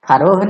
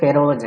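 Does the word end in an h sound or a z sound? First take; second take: h sound; z sound. First: The word ends with an h sound. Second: The word ends with a z sound. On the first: The speaker calls it wrong. "फरोह नहीं है" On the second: The speaker calls it right. "देखिए इसका उच्चारण थोड़ा ढंग से करेंगे, फेरोज है"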